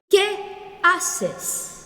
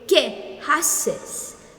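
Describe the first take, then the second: First: The h in haces is left silent. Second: The h in haces is pronounced aloud. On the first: The speaker calls it right. "But you say ¿qué haces? ... the H here should be silent" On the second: The speaker calls it wrong. "You don't say"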